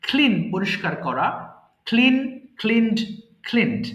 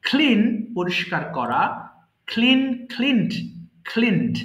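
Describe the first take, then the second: No difference in how they are said.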